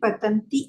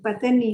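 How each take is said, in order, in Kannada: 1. ಈ ಪದವನ್ನು nt ಗುಂಪಿನೊಂದಿಗೆ ಹೇಳಲಾಗಿದೆ. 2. ಈ ಪದವನ್ನು t ಶಬ್ದವಿಲ್ಲದೆ ಹೇಳಲಾಗಿದೆ. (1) "ಪತಂತಿ ಅದು ಮಾತಾಜಿ" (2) "ಪತನಿ ಅಂದ್ರೆ"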